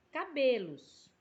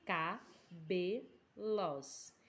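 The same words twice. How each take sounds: First: Said in the usual way. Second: Very slow, stretched out syllable by syllable; slow demo pronunciation. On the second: Shown as a demonstration. Teacher to pupils counting syllables, very slow stretched word. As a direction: draw the word out so each syllable is heard. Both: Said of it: "pronuncie a palavra de forma natural".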